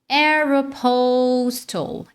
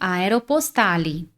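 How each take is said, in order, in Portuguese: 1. É pronunciada com a pronúncia natural do inglês. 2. É pronunciada com a pronúncia do português brasileiro. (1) "o som natural no inglês, na verdade, é esse aqui" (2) "Muitos brasileiros falam Aeropostale, tá? No português"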